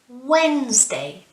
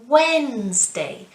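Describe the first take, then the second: First: The d sound in the middle is silent. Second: The same.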